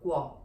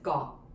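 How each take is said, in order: First: The g is followed by a w sound. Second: The g has no w sound after it. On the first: "properly pronounced as the guo with the G W kind of sound" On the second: "in the lazy pronunciation"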